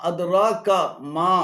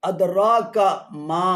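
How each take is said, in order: The two takes are said the same way.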